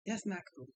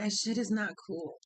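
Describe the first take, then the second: First: Softer repeat. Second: Said in the usual way. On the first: Real, not acted. Repeating her scolding to herself, much softer. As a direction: say it again under your breath.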